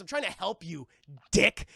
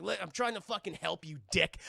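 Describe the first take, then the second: First: "Dick" punched loud at the end; stress on Dick. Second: Said in the usual way. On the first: Retold or imitated. Batman snaps at Robin, "Dick" hit loud. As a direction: land hard on "Dick" like an insult. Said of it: "the way that George Clooney says". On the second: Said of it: "He's like".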